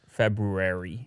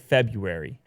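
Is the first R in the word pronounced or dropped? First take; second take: pronounced; dropped. First: The first R is pronounced clearly. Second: The first R is dropped from the word. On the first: "With the extra R" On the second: "you're saying it wrong"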